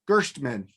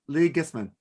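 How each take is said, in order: First: The middle of the name has an 'sh' sound. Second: The middle of the name has an 'st' sound. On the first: The speaker calls it wrong. "No, do it like like like without an H" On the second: The speaker calls it right. "you did the S and T right"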